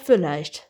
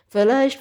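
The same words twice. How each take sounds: First: Vielleicht low with a falling, head-shaking tune; dismissive fall. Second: Vielleicht with a louder rising questioning tune; mocking question. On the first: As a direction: drop vielleicht flat as if shaking your head. (vielleicht tief und fallend, kopfschüttelnd abgetan) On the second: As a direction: echo Vielleicht back as a doubtful question. (Vielleicht fragend, lauter und steigend nachgeäfft) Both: A narrator's reading. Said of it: "sage ich kopfschüttelnd".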